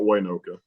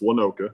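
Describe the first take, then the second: First: The first syllable is said like 'way'. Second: The first syllable has a short vowel, not 'way'. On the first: The speaker calls it wrong. "all of you guys are pronouncing it wrong" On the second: The speaker calls it right. "The Y is silent"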